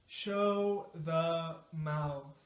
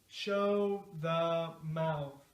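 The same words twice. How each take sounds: Both takes have the same delivery.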